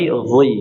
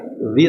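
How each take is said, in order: First: The syllable is said heavy and full. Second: The syllable is said thin and light. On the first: The speaker calls it right. "tapi zoi" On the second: The speaker calls it wrong. "dibaca zi"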